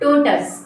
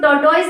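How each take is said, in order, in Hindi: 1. अंत 'tus' जैसा सुनाई देता है। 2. अंत 'toise' जैसा सुनाई देता है। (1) "क्या बोलेंगे, टोटस" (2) "इसको टोटोइज नहीं बोलेंगे"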